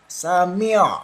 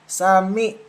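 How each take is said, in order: First: The word ends with a constricted throat sound. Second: The word ends on a plain vowel. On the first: The speaker calls it right. "dari tenggorokan ya" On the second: The speaker calls it wrong. "malah menjadi alif sukun seperti ini"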